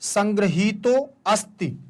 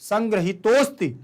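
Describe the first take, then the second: First: The 'a' of asti is clearly pronounced. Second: The 'a' of asti is swallowed, not heard. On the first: The speaker calls it wrong. "तो आप गलत पढ़ रहे हैं।" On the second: The speaker calls it right. "तो आप सही पढ़ रहे हैं।"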